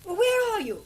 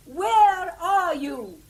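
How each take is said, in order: First: Said in the usual way. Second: Loud and slow, each word stretched for a bad phone line; shouted slowly. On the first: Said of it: "I said". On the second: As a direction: drag it out loudly so they hear. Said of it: "I said, "Where are you?".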